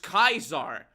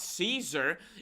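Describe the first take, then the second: First: The name is said with the Latin pronunciation. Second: The name is said with the English pronunciation. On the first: The speaker calls it right. "it's Kaiser" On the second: The speaker calls it wrong. "Caesar is an Angli- uh, Anglican pronunciation of Kaiser"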